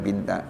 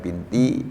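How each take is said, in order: First: The word ends with an a vowel. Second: The word ends with an i vowel. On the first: "dibaca lagi binta" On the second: "dibaca lagi binti"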